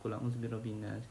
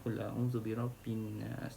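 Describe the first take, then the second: First: The nasal sound before 'nas' is cut short. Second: The nasal sound before 'nas' is held two counts. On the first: The speaker calls it wrong. "dia baca biasa je" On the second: The speaker calls it right. "Sepatutnya kena baca"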